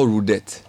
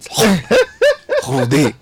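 First: The name ends with a 't' sound. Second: The name ends with a vowel sound. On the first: The speaker calls it wrong. "Is not Rudette" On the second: The speaker calls it right. "French is spoken like you want to spit"

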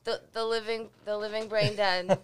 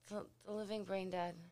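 First: The phrase is said at a louder volume. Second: The phrase is said at a quiet volume.

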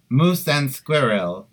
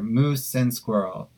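First: It is said in a put-on Russian accent. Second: It is said in a plain, natural accent.

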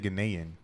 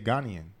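First: It is pronounced the way Americans say it. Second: It is pronounced the way Ghanaians say it. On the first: This is how outsiders say it. The speaker calls it wrong. "They don't say Ghanaian" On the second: This is how people from the country say it. The speaker calls it right. "They say Ghanaian"

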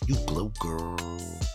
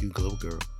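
First: The phrase is said with lively, sassy flair. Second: The phrase is said plainly, without much flair. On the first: The speaker calls it right. "You be like" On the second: The speaker calls it wrong. "You can't be just like"

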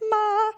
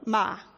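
First: The pitch stays high and level throughout. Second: The pitch falls sharply from high to low. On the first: It means mother. "with a high pitch" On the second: It means to scold. "the way an English speaker might say it if you just read it off a page, it means to scold"

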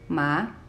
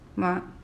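First: The pitch starts mid and rises. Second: The syllable is short and light, without tone. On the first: "starts a little bit lower than the first tone and goes up, rising" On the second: "we have the neutral tone"

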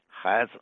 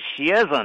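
First: The first syllable begins with an h sound. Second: The first syllable begins with an x sound. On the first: This is the southern dialect reading. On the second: This is the standard Mandarin reading.

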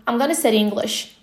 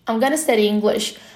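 First: The words are reduced and run together. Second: The words are reduced and run together.

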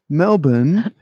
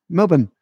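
First: Every letter is fully pronounced, American style. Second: It is clipped and reduced, Australian style. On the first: The speaker calls it wrong. "Your enunciation is just too much" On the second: The speaker calls it right. "Aussies are not into that"

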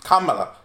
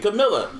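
First: The name is said like Kamala. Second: The name is said like Camilla. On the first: This is how the name's owner says it. The speaker calls it right. "That's not how she pronounces it, though" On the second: This is how the speaker mishears the name. The speaker calls it wrong. "I keep calling her Camilla. That's how I hear her name"

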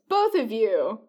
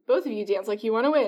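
First: It breaks off with a pause after "you". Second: It runs on with no pause after "you".

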